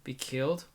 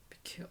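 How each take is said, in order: First: Said in the usual way. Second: Breathless stunned whisper, stumbling on "ki-". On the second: Acted. The narrator, facing death, whispers the words back in shock. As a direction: whisper it to yourself in disbelief.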